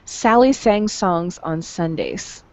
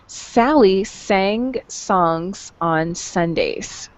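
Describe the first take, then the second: First: It is said at a quicker pace. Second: It is said at a normal, unhurried pace. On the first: "now listen to it faster" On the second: "listen to it again"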